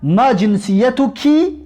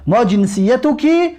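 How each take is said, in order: First: ما جنسیتکی said slowly, drawing out the final کی; feminine ending shown. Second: ما جنسیتکی a little slower, final کی clear; feminine ending again. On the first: Teacher to students, slowly stressing the feminine کی in جنسیتکی. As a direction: spell out the feminine کی in جنسیتکی at half speed. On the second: Teacher to students, repeating جنسیتکی with a clear feminine کی. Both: Shown as a demonstration. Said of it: "زیرا که زن هست".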